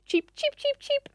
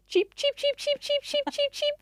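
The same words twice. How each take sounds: First: Short high chirps, a calmer small bird; relaxed chickadee chirps, high; bird impersonation. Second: High, rapid chirping like an alarmed small bird; urgent chickadee alarm chirps, high and insistent; bird impersonation. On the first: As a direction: chirp lightly, much higher, less alarm. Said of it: "it might just go like". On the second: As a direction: chirp out a frantic alarm call, much higher. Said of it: "I'm gonna do a bird impersonation". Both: Retold or imitated.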